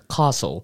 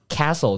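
First: It is said with a British accent. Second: It is said with an American accent. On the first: "如果是英国人他们说Castle" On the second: "这个是美式的城堡"

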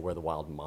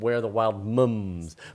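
First: The word moms has an American 'ah' vowel. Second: The word mums has a British 'uh' vowel. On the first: "If this were written by a US author, they would say" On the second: "That's a very non-US pronunciation. It's usually Australian or British"

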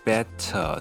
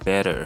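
First: It is said with a British accent, clear T. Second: It is said with an American accent, D-like T.

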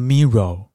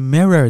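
First: The ending is a rounded 'or' sound. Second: The ending is a plain 'er' sound. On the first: The speaker calls it wrong. "你就会重复的念错，念成mirror" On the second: The speaker calls it right. "这个发音是mirror"

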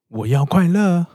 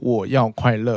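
First: The voice rises at the end, like a question. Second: The voice falls at the end, like a statement. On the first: It asks whether happiness is what one wants. The speaker calls it right. "而是要念作我要快乐。我不知道我有没有把这个问号的感觉表达出来" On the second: It is a plain statement of wanting happiness. The speaker calls it wrong. "我们不应该念作"

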